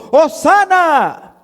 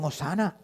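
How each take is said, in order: First: High, drawn-out cry of praise; crowd's jubilant shout. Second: Soft, dropped-away echo of praise; subdued recall. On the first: Acted. Crowd hails Jesus on the road, jubilant shout. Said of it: "daban voces diciendo". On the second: Retold or imitated. Preacher recalls the crowd's earlier praise, subdued. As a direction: let the cheer fall to near nothing.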